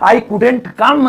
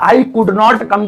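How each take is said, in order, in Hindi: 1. Could और not मिलकर एक शब्द बन जाते हैं। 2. Could और not पूरे शब्दों की तरह बोले जाते हैं। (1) "ऐसे ही बोलोगे थोड़ा अच्छा लगेगा" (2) "की जगह"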